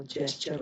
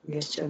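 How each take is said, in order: First: Quieter "जेस्चर" starting with j; correct soft g. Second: Quieter "गेस्चर" starting with hard g; wrong hard g. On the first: Teacher repeating the right gesture, soft-g pronunciation. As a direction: say "जेस्चर" softly, g as j. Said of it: "जेस्चर होगा". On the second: Teacher repeating the mistake, hard-g mispronunciation. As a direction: say "गेस्चर" softly, g as in get. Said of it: "गेस्चर नहीं होगा". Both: Shown as a demonstration.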